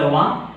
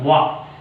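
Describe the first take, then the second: First: "va" with a plain V, pitch rising; wrong V sound. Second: "va" as a rounded W, drawn out slowly; slow, rounded W at the start of "va"; correct W sound. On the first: Teacher showing Indians' same V and W, wrong V sound. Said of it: "It's a wrong. It's a va". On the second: Teacher correcting same V and W, correct W sound. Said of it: "Indians are pronouncing same V and W". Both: Shown as a demonstration.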